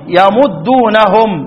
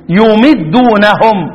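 First: It begins ya-, with a u after the m. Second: It begins yu-, with an i after the m. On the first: It comes from the three-letter verb madda. "والباقون يقرؤون إيه؟" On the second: It comes from the four-letter verb amadda. "ويا يمدون فضم ... واكسر الضم ... انفرد من السبعة الإمام ابن عامر يقرأ إيه؟"

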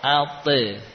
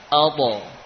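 First: The echo vowel sounds thin and light, like e. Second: The echo vowel sounds thick and raised, like o. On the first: The speaker calls it wrong. "bukan ate" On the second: The speaker calls it right. "suaranya terangkat"

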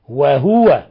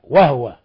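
First: The h is followed by a vowel. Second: The h has no vowel after it. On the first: "وقرأ الباقون من العشرة" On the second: "بتسكين الهاء"

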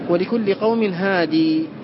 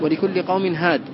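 First: The last word ends in a long ee vowel. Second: The last word ends on a bare consonant. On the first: This is one reader's accepted recitation. "يقرأها بإثبات الياء" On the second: This is the other readers' accepted recitation. "وباقي القراء بالحذف"

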